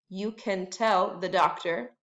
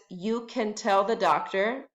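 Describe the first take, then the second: No difference in how they are said.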